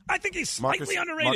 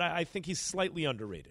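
First: It is said in a lively, excited way. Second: It is said in a flat, low-energy way. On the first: "he asked for a performance" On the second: "I'm not excited about him"

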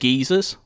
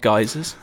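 First: The word is said the British way. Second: The word is said the non-British way. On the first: The speaker calls it right. "That is British for you" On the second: The speaker calls it wrong. "Not geysers"

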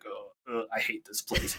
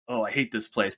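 First: The voice sounds strained and hurt. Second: The voice sounds steady and unhurt. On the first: The character is injured. "but if he's injured" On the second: The character is at full health. "be the same line where he'll be like"

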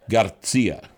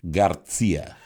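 First: The name is said with a thick Spanish accent. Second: The name is said with a thick Spanish accent.

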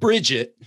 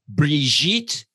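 First: The name is said with English pronunciation. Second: The name is said with French pronunciation. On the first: The speaker calls it wrong. "not Bridget" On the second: The speaker calls it right. "I'm going to pronounce this properly"

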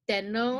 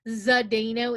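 First: The name is said with Czech-style sounds. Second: The name is said with English-style sounds. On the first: The speaker calls it right. "It should be Zdeno, according to my Czech friend" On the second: The speaker calls it wrong. "It shouldn't be Zdeno"

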